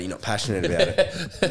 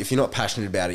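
First: Laughing mock boss. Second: Said in the usual way. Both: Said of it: "And they were like".

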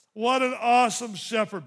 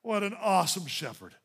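First: Louder, preached again. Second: Said in the usual way. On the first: Shown as a demonstration. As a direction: repeat it louder, AWESOME ringing out. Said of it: "same words said before plainly". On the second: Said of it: "repeated louder right after".

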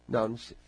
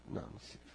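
First: Said in the usual way. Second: Whispered under the breath; whispered refusal to herself. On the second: Real, not acted. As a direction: breathe the refusal almost silently. Repeating refusal under her breath.

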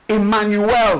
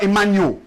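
First: "Emmanuel" in full, ending in a clear "-el"; emphatic correct pronunciation. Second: "Emmanuel" with the last syllable swallowed to "-yul"; mispronounced name. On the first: Pupil correcting a teacher, "Emmanuel" pronounced fully with a clear final "el". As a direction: sound out every syllable of "Emmanuel", landing firmly on "el". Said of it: "you place an emphasis on that". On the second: Pupil quoting the teacher's mistake, "Emmanuel" with a reduced ending. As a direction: run the end of "Emmanuel" together, losing the "el". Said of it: "your teacher said your name wrong".

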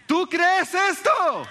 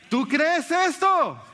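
First: Much higher and louder, slow on "esto"; a slow pulpit shout of "¿Tú crees esto?"; impassioned shout. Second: High and slow on esto; a drawn-out pulpit question; slow, emphatic challenge. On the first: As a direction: cry the question out to the whole room. Preacher repeats the challenge louder. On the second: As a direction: lean hard into "esto", falling slowly. Preacher repeats the challenge. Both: Acted.

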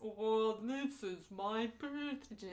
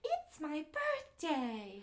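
First: Slow, dragged-out toy voice winding down; talking doll running out of power; doll with dying battery. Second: High, drawn-out singsong doll voice; slow, loud, high-pitched pull-string toy; talking doll. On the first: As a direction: drag the words out as the battery dies. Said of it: "battery starts dying". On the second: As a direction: squeal it slowly like a talking doll. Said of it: "That's exactly how she talks". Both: Acted.

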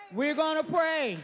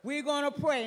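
First: Higher and louder; preacher's shout to begin prayer; rising call to prayer. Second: Said in the usual way. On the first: Acted. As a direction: proclaim it to the room.

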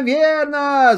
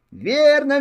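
First: High, eager cry repeated; excited shout. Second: High, eager cry of agreement; excited shout. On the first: Hares shout agreement together, excited. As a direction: cry it out again with glee. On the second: Hares cheer the old hare's guess, excited. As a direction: call out happily, a touch louder. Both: Acted. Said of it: "закричали зайцы".

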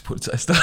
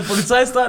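First: Breathy giggled warning; laughing whisper. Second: High laughing alarm; laughing announcement. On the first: (lachend geflüstert) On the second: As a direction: blurt it out laughing. Retold warning, laughing, higher. (lachend gerufen) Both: Retold or imitated.

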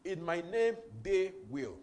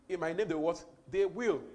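First: Name lifted, they punched loud and falling; stress on they. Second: They what asked, they will shouted; stress on they. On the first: Preacher repeating the verse, they stressed loud. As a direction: drive home they. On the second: Preacher quizzing the church, they will hit loud. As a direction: call and answer on they. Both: Shown as a demonstration. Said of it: "Again, look at that".

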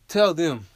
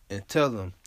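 First: Much higher, much louder furious shout; angry shout. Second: Said in the usual way. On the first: Real, not acted. Host telling listeners with cop relatives, angry shout. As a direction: yell it out in real anger.

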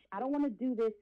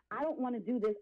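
No difference in how they are said.

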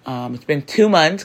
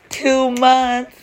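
First: Said in the usual way. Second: Much higher, louder with pride; a thrilled, high exclamation; excited. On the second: Real, not acted. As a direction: repeat it with a proud, high burst of joy. Excited repeat of two months.

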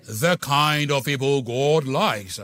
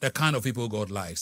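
First: Slow, drawn-out posh Burkina Faso accent, louder. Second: Said in the usual way. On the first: Shown as a demonstration. Preacher to congregation, slow mock posh Burkina Faso accent. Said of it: "A posh accent from Burkina Faso". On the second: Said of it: "Do you like the way I said".

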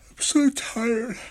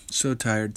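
First: Words stretched slow and high through a yawn. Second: Said in the usual way. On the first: Real, not acted. Podcaster yawning mid-sentence while telling listeners about his week, tired. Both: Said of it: "Sorry for yawning".

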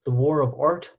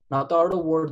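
First: "The War of Art" with weight on War; title stressed. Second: "The Art of War" said as the wrong version; contrast title. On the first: Correcting the book title for listeners, "The War of Art" said deliberately. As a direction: say "The War of Art" carefully, War first. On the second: Pointing listeners away from the wrong book, "The Art of War" contrasted. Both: Shown as a demonstration.

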